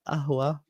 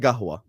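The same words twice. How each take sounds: First: It is said the Egyptian way, with a glottal stop. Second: It is said the Jordanian way, with a g.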